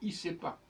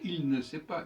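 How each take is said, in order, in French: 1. Le L de 'il' est complètement omis. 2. Le L de 'il' se prononce clairement. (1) "il faut dire" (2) "On ne doit pas dire"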